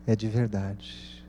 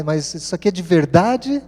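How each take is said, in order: First: Slow, softer falling answer; calm confirmation. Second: Higher, louder disbelieving question rising on VERDADE; incredulous question. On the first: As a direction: quietly assure them it's true. Father's answer confirming it is real. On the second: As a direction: voice the daughters doubting their eyes. Daughters' disbelief at the cheque, acted. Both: Retold or imitated.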